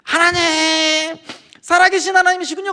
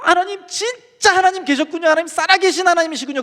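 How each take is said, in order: First: Drawn-out, high crying shout; tearful wail. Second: High-pitched, overcome cry of discovery; awed outcry. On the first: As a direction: reenact wailing to God, stretching the first word. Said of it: "눈물 콧물 쏟으면서 거기서 막 우는". (울부짖듯 높고 길게 외치며) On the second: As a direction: reenact crying out to God in astonishment. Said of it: "그러면서 그때부터 소리 내가지고". (높은 목소리로 벅차게 외치듯) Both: Retold or imitated.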